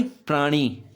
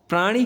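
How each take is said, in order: First: Second प्राणी with long final ee. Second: First प्राणी with short final i; short-i misreading. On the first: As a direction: stretch the ending of प्राणी. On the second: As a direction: clip the ending of प्राणी. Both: Shown as a demonstration. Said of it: "इसमें बड़ी की मात्रा आएगी".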